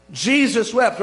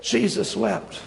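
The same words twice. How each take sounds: First: Loud, quick verse recital; punchy, matter-of-fact quote; brisk recitation. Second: Slow, weighty verse recital; hushed reverence, unhurried; solemn quote. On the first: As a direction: toss the verse out briskly and firmly. Verse rattled off as a favourite. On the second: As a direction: let the short verse sink in slowly. Same verse given weight after pause. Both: Acted.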